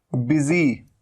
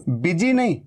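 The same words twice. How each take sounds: First: बिजी with a clear z as in busy; z sound. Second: बिजी with a hard j; showing the mistake; wrong j sound. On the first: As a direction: model बिजी with a z. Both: Shown as a demonstration.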